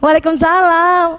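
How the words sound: It is said sweetly, in a coaxing voice.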